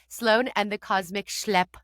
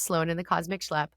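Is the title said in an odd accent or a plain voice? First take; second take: odd accent; plain voice. First: It is said with an odd put-on accent. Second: It is said in a plain, ordinary accent. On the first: "I try to say it with this weird little accent" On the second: "but it's just"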